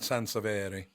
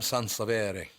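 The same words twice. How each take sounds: First: The name is said with Italian-style pronunciation. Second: The name is said with plain English pronunciation.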